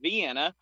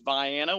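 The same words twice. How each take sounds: First: The name is said the common, usual way. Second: The name is said the local Illinois way. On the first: This is how people elsewhere say the name. "that's how you would normally pronounce it" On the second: This is how the town's own region says the name. "in the state of Illinois, it's Vienna"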